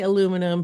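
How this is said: It is said the American way.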